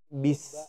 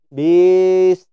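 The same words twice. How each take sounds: First: The vowel after the b is kept short. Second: The vowel after the b is drawn out long. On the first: The speaker calls it right. "tapi bis" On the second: The speaker calls it wrong. "Nggak boleh bis"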